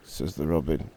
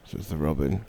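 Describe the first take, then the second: No difference in how they are said.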